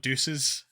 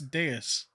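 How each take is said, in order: First: The word sounds like the English word deuces. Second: The word is said as deus, unlike deuces. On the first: This is how the English dub says it. The speaker calls it wrong. "they pronounce it wrong" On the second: This is how it is supposed to be said. The speaker calls it right. "Pretty sure if it, it's deus"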